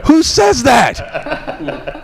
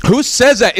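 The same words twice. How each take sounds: First: Very slow, high laughing disbelief; real laughter, much higher. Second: High incredulous question; much higher disbelieving question. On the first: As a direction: drag it out through laughter. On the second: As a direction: ask it in disbelief. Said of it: "What is wrong with me". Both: Real, not acted.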